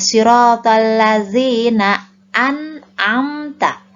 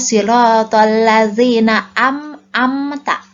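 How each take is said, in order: First: The first syllable ends with an n sound. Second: The first syllable ends with an m sound. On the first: The speaker calls it right. "ketika bacaan siratal ladzina an'amta" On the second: The speaker calls it wrong. "suka ada bacaan yang keliru"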